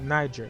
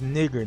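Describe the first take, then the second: First: The first vowel is long. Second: The first vowel is short. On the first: The speaker calls it wrong. "not Niger" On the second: The speaker calls it right.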